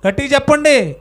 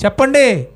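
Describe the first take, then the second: First: Louder prompt. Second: Said in the usual way. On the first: Real, not acted.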